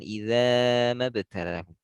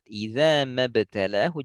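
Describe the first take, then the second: First: The opening vowel is drawn out too long. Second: The opening vowel is held only briefly. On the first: The speaker calls it wrong. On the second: The speaker calls it right. "ulang lagi pada iza hanya dua harokat"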